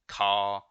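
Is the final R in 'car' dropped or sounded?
dropped. The final R sound is dropped. "we don't pronounce our R's"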